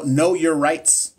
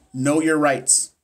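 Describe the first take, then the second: First: Know your rights drawn out slowly; slow, deliberate know your rights; slow emphasis. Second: Know your rights repeated slowly, landing on your; slow, weighty echo. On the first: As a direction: lean on every word of know your rights. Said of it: "also know". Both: Shown as a demonstration.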